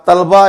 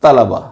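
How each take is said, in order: First: तलबा as tal-ba, no vowel after ल; mispronunciation demo. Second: तलबा as ta-la-ba; correct pronunciation. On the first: Teacher showing what not to read, तलबा as tal-ba. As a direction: say तलबा in two syllables, tal-ba. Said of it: "गलत है". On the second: Teacher giving the correction, तलबा as ta-la-ba. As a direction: open तलबा into three syllables, ta-la-ba. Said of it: "इसका दुरुस्त तलफ़ुज़ है". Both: Shown as a demonstration.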